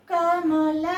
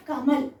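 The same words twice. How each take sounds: First: "కమల" letter by letter, final a sounded; "కమల" with the last ల fully voiced; full final vowel. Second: "కమల్" run together, ending on a bare l; "కమల్" as one word, no final a; half final letter. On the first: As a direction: spell out "కమల" in separate full syllables. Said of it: "ఇక్కడ కమల అనట్లేదు మనం". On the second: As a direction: clip the vowel off the end of "కమల్". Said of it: "చివరి అక్షరాల్ని హాఫే పలుకుతున్నాం". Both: Shown as a demonstration.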